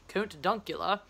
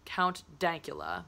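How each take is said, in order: First: The name is said in a Scottish accent. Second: The name is said in a plain accent.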